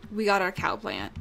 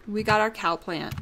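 The two takes are said the same way.

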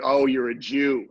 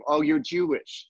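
First: Slow, hard-edged remark; accusing tone. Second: Slow, softened, friendly reaction; nice and soft. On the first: Host demonstrating the problem wording, mock accusing tone. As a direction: say it slowly, landing heavily like an accusation. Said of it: "Depends on the tone, your cadence". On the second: Host demonstrating the acceptable wording, soft and friendly. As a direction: ease gently onto the word, slowly. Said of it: "that's a nice soft". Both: Shown as a demonstration.

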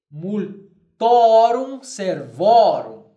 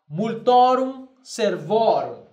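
First: Very slow, louder multorum servorum; slow emphatic Latin model. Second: Slower, steady multorum servorum; slow Latin repeat. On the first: Teacher dictating Latin genitive plural to class. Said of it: "eu direi". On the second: Teacher repeating the Latin form for students. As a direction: repeat it calmly for the class. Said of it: "apenas observem bem a pronúncia". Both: Shown as a demonstration.

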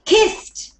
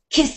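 First: Kissed said higher, with a crisp final T; teacher's emphatic model of Kissed ending in a clear T; stressed T ending. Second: Kissed with a light final T; ending sounded like a T. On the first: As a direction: punch the T at the end of Kissed, kist. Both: Shown as a demonstration. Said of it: "we have to sound it like it's a T".

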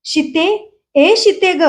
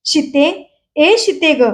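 First: Higher, restrained cry of a name; high-pitched calling. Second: A touch of a worn-out voice; hoarse calling. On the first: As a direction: call out on a raised note, without full volume. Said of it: "तार स्वरात तो ओरडत होता". (तार स्वरातली हाक) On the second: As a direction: keep calling, voice slightly spent. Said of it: "बसलेल्या आवाजात विसूचं चाललं होतं". (बसलेल्या आवाजातली हाक) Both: A narrator's reading.

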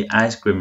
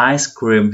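First: "ice cream" with the tone sliding down a little; relaxed fall on "ice cream"; tone pulled down. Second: "Ice cream" with the voice pushed up; "Ice cream" stressed, tone going up a little; raised, stressed tone. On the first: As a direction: let "ice cream" drop at the end. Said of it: "nó kéo xuống một chút". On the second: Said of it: "cái âm nó nhấn lên cao chút". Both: Shown as a demonstration.

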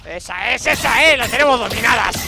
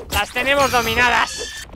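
First: Louder, quick satisfied boast; cheering after a fight; triumphant cheer. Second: Slow, sing-song and louder; savoring the win over the ants; drawn-out gloat. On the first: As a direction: crow over the beaten ants. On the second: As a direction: stretch it out like a taunt. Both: Real, not acted.

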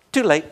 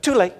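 First: Jean Donaldson. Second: Said in the usual way. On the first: Retold or imitated. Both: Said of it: "I say it like Jean Donaldson".

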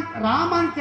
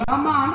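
First: "రామ" with a long first vowel, Raa-ma; name said as Rama. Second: "రామ" turned into Ra-maa, short first vowel; misheard as Ramaa. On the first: Patient giving his name at the hospital counter, "రామ" said Raa-ma. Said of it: "రామ అని చెప్తారు". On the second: Hard-of-hearing counter clerk writing the name down, "రామ" misheard as Ra-maa. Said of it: "కానీ ఆ counter రాసే వ్యక్తి". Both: Retold or imitated.

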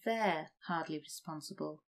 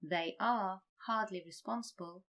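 First: "they're" run together as one syllable; contracted form. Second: "They are" said as two clear words; full form. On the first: Teacher gives the shortened form. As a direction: blend "they're hardly responsible". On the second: Teacher reads the long form first. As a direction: keep "They are hardly responsible" uncontracted. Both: Shown as a demonstration.

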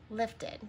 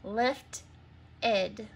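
First: Said in the usual way. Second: LIFT, pause, ID as separate syllables. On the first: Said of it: "say the new word". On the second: Shown as a demonstration. Teacher changes the last syllable, saying LIFT and ID apart. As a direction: sound out the two parts, LIFT and ID. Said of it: "change the last syllable to E D".

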